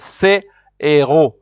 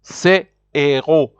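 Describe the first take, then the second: Both takes have the same delivery.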